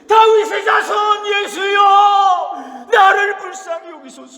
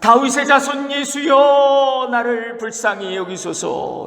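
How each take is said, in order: First: It is shouted even louder. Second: It is shouted loudly.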